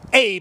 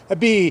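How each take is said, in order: First: The name is said like English 'Abe'. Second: The name is said like 'ah-beh'. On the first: "I'm gonna start calling him Abe" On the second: "it's pronounced a bay"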